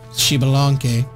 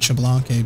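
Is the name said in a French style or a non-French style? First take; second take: non-French; French. First: The name is said in a non-French way. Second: The name is said in a French-sounding way. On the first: The speaker calls it right. "It's Chibalanque. Because it is a not French name" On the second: The speaker calls it wrong. "I always pronounce it Chablanque, but... It's not a French name"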